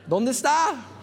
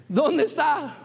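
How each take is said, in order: First: Está hit hard with a falling end; stress on está. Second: Dónde pushed up high and loud; stress on dónde. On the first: Preacher asking the crowd where the man is, stress on está. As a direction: lean on "está", let it drop. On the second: Preacher pressing the crowd again, stress on dónde. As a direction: punch "dónde", then fall away. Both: Shown as a demonstration. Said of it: "pastor repeats question for emphasis".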